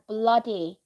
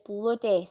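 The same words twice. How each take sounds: First: It is said in a southern English accent. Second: It is said in a non-southern English accent. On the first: This is how someone from the south says it. "if someone was from down south, they would say" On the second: This is how the speaker says it. "But I say bloody"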